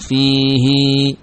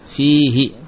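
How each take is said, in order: First: The final vowel after h is lengthened. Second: The final vowel after h is short. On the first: This is the special reading in this verse. "dibaca dengan panjang fihi" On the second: This is the usual reading of the word. "tanpa silah fihi tanpa memanjangkan ha"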